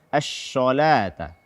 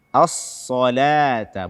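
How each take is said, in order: First: The s sound is pronounced as sh. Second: The s sound is thick and emphatic. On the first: The speaker calls it wrong. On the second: The speaker calls it right. "mengganti huruf shad dengan sin atau shin"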